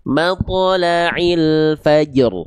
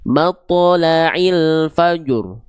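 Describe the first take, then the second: First: Slow drawn-out "matla'il fajr", light bounced j, heavy r; jim tipis yang benar. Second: Slow drawn-out "Matla'il fajr" ending in a rounded "jur"; jim tebal yang salah. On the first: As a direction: recite "matla'il fajr" slowly, keeping the j thin. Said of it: "jadi tebal jimnya, enggak". ("matla'il fajr" dilantunkan pelan, jim tipis, ro tebal) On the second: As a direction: recite "Matla'il fajr" slowly, wrongly thickening the j. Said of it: "jangan jadi gini". ("Matla'il fajr" dilantunkan pelan, jim ikut tebal) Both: Shown as a demonstration.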